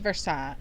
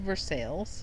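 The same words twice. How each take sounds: First: The name is said the standard French-like way. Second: The name is said the local Kentucky way. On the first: The speaker calls it right. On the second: The speaker calls it wrong.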